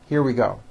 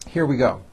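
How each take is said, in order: No difference in how they are said.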